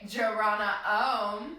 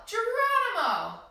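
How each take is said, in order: First: Slow, low chanted Geronimo. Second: Yelled. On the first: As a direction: hum it out like an om. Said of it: "Except we're gonna say". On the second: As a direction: shout it as you jump. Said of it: "we're gonna yell". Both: Shown as a demonstration.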